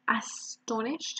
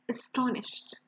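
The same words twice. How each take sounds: First: The first sound is clearly pronounced. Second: The first sound is nearly silent. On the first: The speaker calls it wrong. "We don't say astonished" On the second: The speaker calls it right. "the first sound here is silent"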